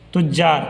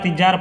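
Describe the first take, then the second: First: The first vowel is a short u. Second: The first vowel is a short i. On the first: The speaker calls it right. "ता पर पेश के साथ" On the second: The speaker calls it wrong. "तज्जार या तिज्जार पढ़िएगा या तिजार पढ़िएगा तो गलत है"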